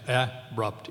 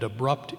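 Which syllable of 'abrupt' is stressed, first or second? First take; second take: first; second. First: The stress is on the first syllable. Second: The stress is on the second syllable. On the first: The speaker calls it wrong. "You can't pronounce the word abrupt that way" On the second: The speaker calls it right. "It's accented normally in the second syllable"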